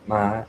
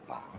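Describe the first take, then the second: First: The pitch stays high and level. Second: The pitch stays low throughout. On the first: "we have the high tone like ma" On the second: "the low tone ma"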